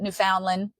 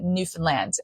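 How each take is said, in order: First: It is said the way outsiders say it. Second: It is said the way locals say it. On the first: The speaker calls it wrong. "we do not pronounce it Newfoundland" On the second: The speaker calls it right. "We pronounce it Newfoundland"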